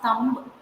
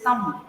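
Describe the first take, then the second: First: Thumb with an audible B at the end; B pronounced. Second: Thumb ending on M, the B dropped; silent B. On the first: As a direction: sound out the final B in thumb. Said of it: "it is not thumb". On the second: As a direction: close thumb on M without a B. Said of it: "The B should be silent". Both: Shown as a demonstration.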